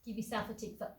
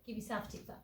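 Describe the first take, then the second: No difference in how they are said.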